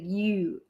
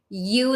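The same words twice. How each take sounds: First: The word has a fronted Baltimore-style vowel. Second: The word has a plain, standard vowel. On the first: "they pronounce it like Y E W" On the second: "instead of like you, like Y O U"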